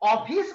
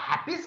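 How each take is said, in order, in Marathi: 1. शब्द थेट स्वराने सुरू होतो. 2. शब्द h आवाजाने सुरू होतो. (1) "ऑफिस म्हणायचं" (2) "हाफिस म्हणायचं"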